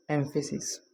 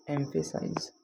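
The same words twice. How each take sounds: First: एम्फेसिस said as "EM-pha-sis", stress on the first syllable, soft ending; emphasis. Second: एम्फेसाइज said as "EM-pha-size", ending in a long "size"; emphasize. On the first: Teacher setting the noun एम्फेसिस apart from the verb. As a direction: say एम्फेसिस with the weight on the front. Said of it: "एक तो word होता है". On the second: Teacher setting the verb एम्फेसाइज apart from the noun. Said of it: "और दूसरा होता है". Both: Shown as a demonstration.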